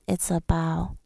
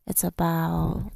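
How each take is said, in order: Both takes have the same delivery.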